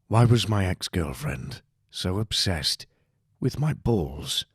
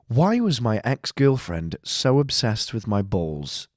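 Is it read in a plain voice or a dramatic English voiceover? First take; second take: dramatic English; plain. First: It is read in a dramatic English voiceover. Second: It is read in a plain, ordinary voice.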